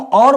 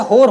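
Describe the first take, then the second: First: It begins with an au vowel, no h. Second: It begins with an h and an o vowel. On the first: This is the usual standard pronunciation. "हम और बोलते हैं normally" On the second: This is the Khari Boli dialect pronunciation. "ये होर हो जाता है"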